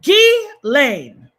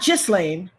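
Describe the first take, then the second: First: The S sound is left out of the name. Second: The S sound is pronounced in the name. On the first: The speaker calls it right. "The S is silent" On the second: The speaker calls it wrong. "Not Ghislaine"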